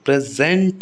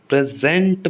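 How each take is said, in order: First: The stress is on the second syllable. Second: The stress is on the second syllable.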